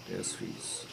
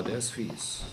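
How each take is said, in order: First: A hushed whisper of "Der ist fies"; whispered aside. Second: Said in the usual way. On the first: Acted. Same words repeated whispered.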